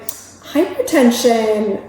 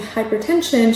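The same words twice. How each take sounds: First: The word is said with lively, changing pitch. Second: The word is said in a plain, even voice. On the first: "She would change her pitch or her tone of voice while she said certain words" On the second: "if I were to say hypertension"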